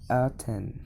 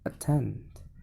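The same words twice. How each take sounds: First: The first vowel is a full, strong vowel. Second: The first vowel is a reduced, weak vowel. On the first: The speaker calls it wrong. "If in a strong syllable, ... This is incorrect pronunciation" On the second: The speaker calls it right. "If in a weak syllable, ... The second one is the correct pronunciation"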